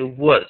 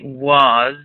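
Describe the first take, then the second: First: The vowel is reduced and unstressed. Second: The vowel is full and clearly stressed. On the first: The speaker calls it right. "I say was" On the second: The speaker calls it wrong. "I don't say was"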